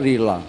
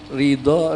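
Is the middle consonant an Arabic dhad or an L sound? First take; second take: L sound; dhad. First: The middle consonant is replaced by an L sound. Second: The middle consonant is the Arabic dhad sound.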